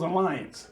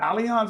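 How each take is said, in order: First: The name is said like the word 'alliance'. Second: The name is not said like 'alliance'. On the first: The speaker calls it wrong. "or it was Alliance? ... I said it was Alliance" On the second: The speaker calls it right. "so that's how you pronounce it, Allianz"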